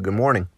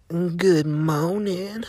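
First: It is said in a natural voice. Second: It is said in a put-on voice.

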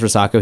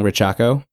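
First: The middle consonant is a plain s sound. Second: The middle consonant is a ch sound. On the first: "every time he says Risako" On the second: "he is saying Richako"

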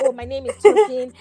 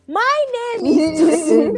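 First: It is said in a casual, everyday tone. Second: It is said in a formal debate tone.

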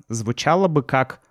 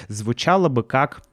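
No difference in how they are said.

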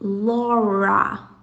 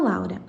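First: The R is a strong, drawn-out English R. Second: The R is a light Portuguese-style R. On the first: The speaker calls it right. "esse R vai ser bem puxado" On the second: The speaker calls it wrong. "não seria pronunciado dessa maneira"

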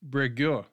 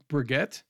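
First: The word ends without a T sound. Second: The word ends with a T sound. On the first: The speaker calls it right. "I'm not pronouncing the T at the end" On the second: The speaker calls it wrong. "but it could be Breguet"

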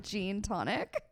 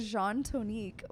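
First: The drink name has an English-style pronunciation. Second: The drink name has a French-style pronunciation. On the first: The speaker calls it wrong. "which I did not pronounce correctly the first time" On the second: The speaker calls it right. "I got the Jean Tonique"

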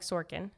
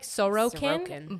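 First: The second O is nearly dropped. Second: The second O is clearly pronounced. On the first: This is how it sounded on the show. "you almost couldn't hear the second O" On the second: This is how the spelling suggests it. "It looks like Sorokin"

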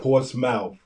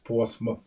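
First: The ending is said like the word mouth. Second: The ending is weak, not like mouth. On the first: The speaker calls it wrong. "It's not Portsmouth. ... Not a port Portsmouth. Of a mouth" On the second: The speaker calls it right. "It's Portsmouth"

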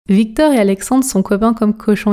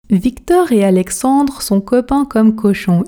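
First: It is said quickly in a relaxed, casual way. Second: It is said at an ordinary, fluent speaking speed. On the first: "pratiquons la version rapide, la version express" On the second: "vitesse standard maintenant. Objectif, fluidité"

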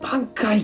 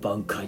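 First: The word is shouted loudly. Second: The word is muttered quietly.

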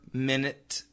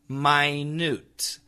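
First: The stress is on the first syllable. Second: The stress is on the second syllable. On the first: A unit of time. "Like an hour, minute, second?" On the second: Very, very small. "So the pronunciation is minute, minute"

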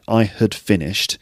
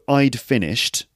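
First: The word had is weakened and reduced. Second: Had shrinks to a d sound after I. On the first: "You can hear that, right?" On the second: "And then you got I'd finished"

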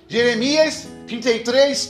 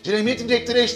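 First: It is said at a slower pace. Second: It is said at a faster pace.

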